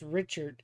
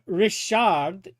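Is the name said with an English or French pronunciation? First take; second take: English; French. First: The name is said with English pronunciation. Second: The name is said with French pronunciation.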